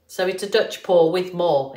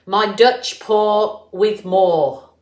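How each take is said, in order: First: Said in the usual way. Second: "Dutch pour with more" said slowly and louder, each word set apart; slow announced name. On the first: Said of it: "exactly what it's saying". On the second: Shown as a demonstration. To viewers, unveiling her new technique name, slow and emphatic. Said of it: "what I'm calling".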